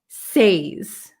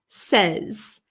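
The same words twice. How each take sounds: First: The vowel is a long 'ay' sound. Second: The vowel is a short 'eh' sound. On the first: The speaker calls it wrong. "We don't say" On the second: The speaker calls it right. "it's like an, a short eh, eh sound"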